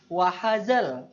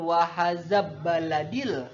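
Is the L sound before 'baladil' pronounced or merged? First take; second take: pronounced; merged. First: The L sound is pronounced clearly. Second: The L sound merges into the following B. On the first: The speaker calls it right. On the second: The speaker calls it wrong.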